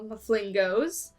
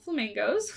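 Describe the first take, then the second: First: The word starts with an 'm' sound. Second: The word starts with an 'f' sound. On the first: It is a deliberate playful mispronunciation. The speaker calls it wrong. "I know I pronounced it wrong. I did that on purpose" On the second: It is the usual name of the bird. The speaker calls it right. "I know they're called flamingos"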